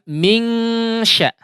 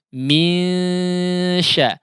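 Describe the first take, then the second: First: A full, distinct 'ng' sound precedes the 'sy'. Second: The nasal is light, with air through mouth too. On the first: The speaker calls it wrong. "bukan mingsya ya" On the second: The speaker calls it right. "tapi misya"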